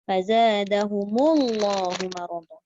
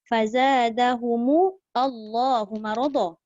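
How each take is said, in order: First: Allah is joined smoothly onto the word before. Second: Allah starts with its own glottal catch, separately. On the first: "kita ikut je lah" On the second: "Ayat asalnya"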